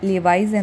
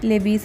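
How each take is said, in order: First: The second syllable has an 'eye' vowel. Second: The second syllable has an 'ee' vowel. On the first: The speaker calls it right. "Correct pronunciation" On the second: The speaker calls it wrong. "നമ്മൾ പൊതുവെ pronounce ചെയ്യുന്നത്"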